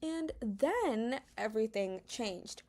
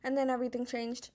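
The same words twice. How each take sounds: First: The sentence is said slowly and dramatically. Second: The sentence is said very quickly. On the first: "slowly and more dramatic" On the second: "say it very quickly"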